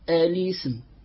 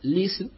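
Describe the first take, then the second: First: The word begins with an 'a' vowel before l. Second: The word begins directly with the l sound. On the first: The original form is kept, so the connecting hamza is pronounced. "نأتي بها" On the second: The temporary vowel on the lam is counted, so no connecting hamza is needed. "اكتفينا بحركتها وبدأنا ليسن"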